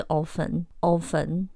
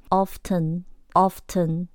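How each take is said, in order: First: Often said with the t silent, "offen"; often as Taiwan usually hears it; common Taiwan pronunciation. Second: Often said with the t sounded, "off-ten"; often the British way, slowly; British pronunciation. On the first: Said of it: "我们在台湾最常听到的就是often". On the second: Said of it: "但是英式often". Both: Shown as a demonstration.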